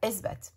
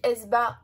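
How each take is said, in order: First: The final t is pronounced. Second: The final t is silent. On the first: "je prononce toutes les lettres" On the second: "je ne sais pas si on dit Esba ou Esbat"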